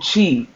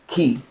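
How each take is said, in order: First: The word begins with a ch sound. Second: The word begins with a hard k sound. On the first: The speaker calls it right. "It's Chi" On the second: The speaker calls it wrong. "Ki is not"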